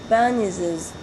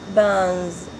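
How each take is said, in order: First: It is said as two syllables, ending in 'iz'. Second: It is said as one syllable, without an added ending. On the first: "if I want to add the s genitive" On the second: "it ends with the sound"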